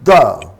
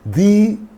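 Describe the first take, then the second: First: The vowel is a short 'uh' sound. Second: The vowel is a long 'ee' sound. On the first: It comes before a word starting with a consonant sound. "Before the consonant sounds, we pronounce the" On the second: It comes before a word starting with a vowel sound. "before the vowel sounds, we use, we pronounce the"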